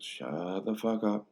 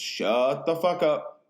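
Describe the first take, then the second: First: Slow, held-back yell as if from another room; distant yell. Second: Slow, high, drawn-out mock shout; imitated full yell. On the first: Retold or imitated. Justin heard from the distance while friends talk, muted mock yell. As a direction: imitate a faraway, drawn-out shout. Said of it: "you just hear from the distance". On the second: Justin yelling at chatting friends early morning, full mock shout. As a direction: holler it out, stretching the words. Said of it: "you just really start to hear it".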